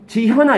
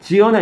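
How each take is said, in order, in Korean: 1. ㅎ 소리가 분명히 발음돼요. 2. ㅎ 소리가 완전히 빠져요. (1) "지현아 이렇게 해야 되는데" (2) "지연아 이렇게 돼서"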